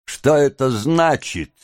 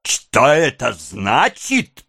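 First: Raised, startled question; startled demand to know; involuntary exclamation. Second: Slow, enraged echo of a question; incredulous, raging drawn-out question; furious. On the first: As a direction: blurt the question, pitched up. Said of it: "невольно воскликнула девушка". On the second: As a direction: repeat it drawn out, seething with rage. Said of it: "потеряв голову от бешенства". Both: A narrator's reading.

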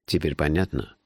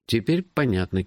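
First: Said in the usual way. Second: Higher-pitched answer of understanding; compliant echo. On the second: A narrator's reading. Hero nods to his friend's explanation, compliantly echoing.

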